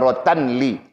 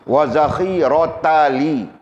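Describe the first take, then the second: First: An n sound is added before 'li'. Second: No n sound is heard before 'li'. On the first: The speaker calls it wrong. "bukan rotan li. Salah itu" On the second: The speaker calls it right. "tidak mungkin boleh dibaca dengan tanwin"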